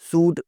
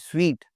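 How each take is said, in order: First: The word sounds like suit. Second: The word sounds like sweet. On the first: The speaker calls it wrong. "सूट वगैरह कुछ नहीं" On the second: The speaker calls it right. "स्वीट लफ्ज़ होता है"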